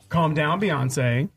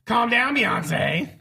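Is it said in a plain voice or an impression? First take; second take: plain; impression. First: It is said in a plain voice. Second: It is said imitating Bianca's voice.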